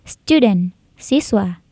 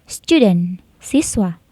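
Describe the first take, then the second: Both takes have the same delivery.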